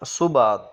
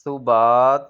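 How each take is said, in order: First: صبات started with a clean hissing س; صبات with an s onset; سین sound. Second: صبات with a lisped th onset; ثا sound. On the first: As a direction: say صبات with a plain s, no th. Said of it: "سین کے ساتھ صبات". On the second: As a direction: say صبات with ث, not س. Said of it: "سا کے ساتھ". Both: Shown as a demonstration.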